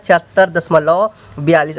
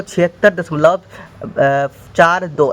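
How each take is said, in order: First: "बयालीस" said as one whole number; digits run together. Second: "चार दो" said digit by digit; digits read separately. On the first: Teacher showing students the wrong reading, digits run together. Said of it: "ऐसे नहीं बोलना है". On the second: Teacher showing students how decimals are read, digit by digit. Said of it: "ऐसे बोलना है". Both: Shown as a demonstration.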